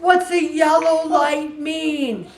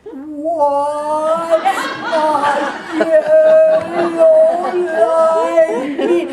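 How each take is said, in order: First: A slow, high, puzzled question. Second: Milk the punchline, dragging every word; hugely drawn-out question. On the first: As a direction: ask it like a confused driver cheating on his test. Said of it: "so he yelled to Tony". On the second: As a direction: stretch "yellow" out very slowly, louder and higher through laughter. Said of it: "And then Jim goes". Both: Retold or imitated.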